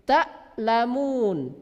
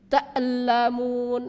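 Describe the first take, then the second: First: The glottal stop is held with no echo. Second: The glottal stop is released with a bouncing echo. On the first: The speaker calls it right. "Itu yang betul" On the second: The speaker calls it wrong. "Jangan dipantulkan hamzahnya ... ini salah"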